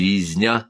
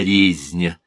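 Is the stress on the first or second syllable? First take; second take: second; first. First: The stress is on the second syllable. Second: The stress is on the first syllable. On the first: People are killing each other. "говорит не резня" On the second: You are the one being killed. "ударения на первом слоге"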